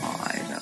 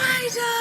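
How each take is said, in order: First: It sounds bored and flat. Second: It sounds pleasantly surprised.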